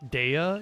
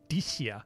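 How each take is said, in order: First: The name is said the English way. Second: The name is said the Japanese way.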